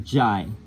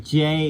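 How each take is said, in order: First: The vowel sounds like 'eye'. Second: The vowel sounds like 'ay'. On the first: The speaker calls it right. "It's really Jai" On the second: The speaker calls it wrong. "the word is not really J"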